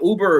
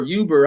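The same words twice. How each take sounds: First: "Uber" starting on a plain oo, no y; oo sound in Uber. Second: "Uber" starting with a y glide; y sound in Uber. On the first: Speaker unsure how to say the word, "Uber" as OO-ber. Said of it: "that's how you say it". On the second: Speaker trying the other way, "Uber" as YOO-ber. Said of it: "however you say the fucking word". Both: Shown as a demonstration.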